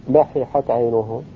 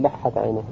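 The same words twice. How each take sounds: First: لححت said slowly as la-hi-hat, each ha separate; unmerged double letter. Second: لحت as lah-hat, the ha doubled in one hold; merged double letter. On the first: Teacher showing no assimilation occurred, لححت with two separate ha sounds. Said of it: "ولم يقع الادغام". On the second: Teacher citing the form not said, لحت merged into lah-hat. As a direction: say لحت in two syllables, the two ha letters fused. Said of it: "لم يقل". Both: Shown as a demonstration.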